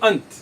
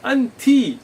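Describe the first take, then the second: First: The word ends in a bare consonant. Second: The word ends with a clear final vowel. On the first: The grammatical ending is left unmarked. "You will not just say ant" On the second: The grammatical ending is made clear. "you're making clear which i'rab is being used"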